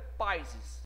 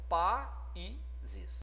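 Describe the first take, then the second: First: The A and I glide together in two syllables. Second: The A and I sit in separate syllables. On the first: The speaker calls it wrong. "não é países" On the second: The speaker calls it right. "esse A e esse I, né, ficaram naturalmente um em cada sílaba"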